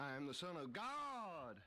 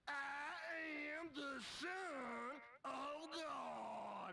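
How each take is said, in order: First: It is said at normal pace and volume. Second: It is said more slowly than before.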